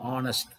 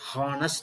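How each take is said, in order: First: The word begins with a vowel sound. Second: The word begins with a consonant sound. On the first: The speaker calls it right. "a vowel pronounced word" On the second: The speaker calls it wrong. "it should not be pronounced as honest"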